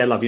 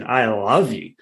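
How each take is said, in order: First: Said in the usual way. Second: Mildly passionate, drawn-out LOVE; coaching someone to mean it. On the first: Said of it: "Look in your eyes and say". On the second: Acted. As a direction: lean into the word love with some feeling. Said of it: "Now say it with passion".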